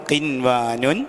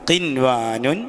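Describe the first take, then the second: Both takes have the same delivery.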